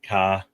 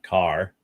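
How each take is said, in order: First: It is said in a Boston accent. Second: It is said in a Californian accent.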